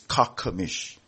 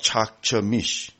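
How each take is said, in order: First: The name is said with a k sound. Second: The name is said with a ch sound. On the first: The speaker calls it right. "it's kakamish. Okay, K sound" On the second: The speaker calls it wrong. "is not chakchamish"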